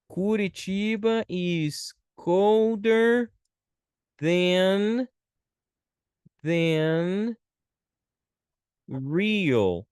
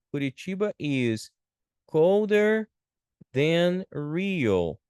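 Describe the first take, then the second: First: Very slow, stretched words with pauses; slow dictation. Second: Said in the usual way. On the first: Shown as a demonstration. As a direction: dictate it word by word. Teacher writing out example sentence.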